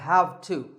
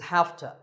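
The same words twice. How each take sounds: First: The words are said fully and separately. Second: The words blend into one reduced form.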